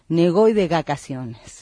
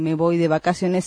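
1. La última palabra empieza con sonido g. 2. La última palabra empieza con sonido b. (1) "en lugar de la B y la B, los ventrílocos usamos la G" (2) "Nuestros muñecos no dicen"

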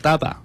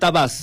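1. 这个单词结尾没有任何 s 音。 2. 这个单词结尾有清晰的 s 音。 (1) "就是叫Daba" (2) "不是Dabas 啊"

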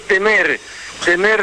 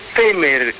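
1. El acento está en la última sílaba. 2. El acento está en la primera sílaba. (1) "es temer de miedo" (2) "como lo pronuncian ellos"

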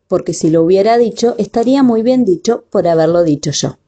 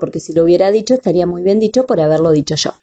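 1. Se dice a un ritmo más lento y normal. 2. Se dice a un ritmo más rápido.

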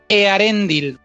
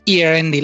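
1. El nombre se pronuncia con sonidos de estilo español. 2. El nombre se pronuncia con sonidos de estilo inglés. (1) "es Earendil, porque el élfico, curiosamente, se pronuncia muy parecido al castellano" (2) "No es Earendil"

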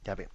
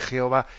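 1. El nombre se pronuncia con sonido de y y a. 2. El nombre se pronuncia con sonido de j y o. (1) "la pronunciación más correcta, más que Jehová, es Yahvé" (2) "más que Jehová"

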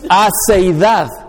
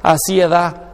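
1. El sonido e va antes que el sonido i. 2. El sonido i va antes que el sonido e. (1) "No. Aceidad" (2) "se dice aciedad. No"

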